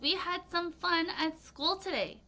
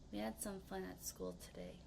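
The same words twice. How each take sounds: First: It is said in a cheerful, happy tone. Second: It is said in a sad, regretful tone. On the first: "I just said it in a very happy tone" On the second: "let's say it in a rueful tone, ruefully. ... In a very sad, showing some regret"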